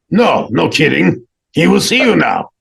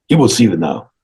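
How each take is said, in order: First: Insistent secretary. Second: Stern secretary's measured announcement, only lightly put on. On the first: Retold or imitated. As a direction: insist on it, pitched well up. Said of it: "And he goes". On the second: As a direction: announce it formally, at a normal pitch. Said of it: "it's the secretary guy".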